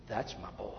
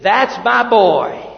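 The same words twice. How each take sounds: First: Whisper. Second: Put-on slow, loud "That's my boy" with pride; proud loud declaration. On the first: Retold or imitated. Fond parent quote whispered. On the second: Preacher voicing God as a proud father, slow and loud. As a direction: announce it like a proud father, drawn out. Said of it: "God makes a statement".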